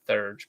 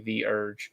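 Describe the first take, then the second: First: The word is said as one syllable. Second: The word is said as two syllables. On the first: The speaker calls it wrong. "I always want to pronounce it Thurge" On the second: The speaker calls it right. "it is actually the Urge"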